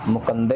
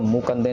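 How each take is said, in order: First: The first vowel is said short and quick. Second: The first vowel is drawn out long. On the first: The speaker calls it right. "इसको भी जल्दी बोल के निकल जाना है" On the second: The speaker calls it wrong. "इसको मुकंदे नहीं कहना"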